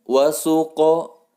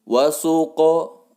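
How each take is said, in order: First: The q sound bounces into a short o. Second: The q sound bounces into a short o.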